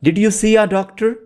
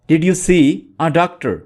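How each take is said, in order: First: "Did you see a doctor?" lifting high on see and rising at the end; rising question tune. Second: Said in the usual way. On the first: Shown as a demonstration. Teacher models the question for learners with a high rising tune. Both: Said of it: "repeating the question for learners".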